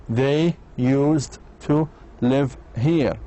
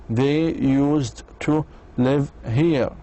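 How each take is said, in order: Both takes have the same delivery.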